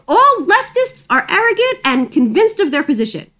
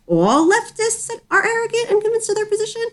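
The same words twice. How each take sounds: First: It ends falling, like a statement. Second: It ends rising, like a question.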